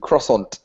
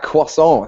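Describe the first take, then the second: First: The word has a lazy American pronunciation. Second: The word has a French-style pronunciation. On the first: The speaker calls it wrong. "if you're a lazy American and don't say words properly" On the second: The speaker calls it right. "the correct correct correct, correct pronunciation"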